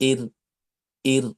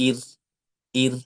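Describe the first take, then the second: Both takes have the same delivery.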